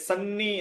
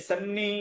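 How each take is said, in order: No difference in how they are said.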